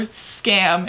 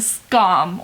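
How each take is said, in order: First: The word is said in a strong American accent. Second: The word is said without an American accent.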